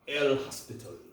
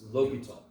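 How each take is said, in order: First: The name is said with an S sound. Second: The name is said without an S sound. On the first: The speaker calls it wrong. "it looks like what?" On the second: The speaker calls it right. "No, but it's L'Hopital"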